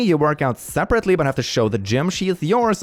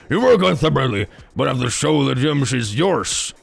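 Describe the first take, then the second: First: It is read in a put-on girlish voice. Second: It is read in his normal speaking voice.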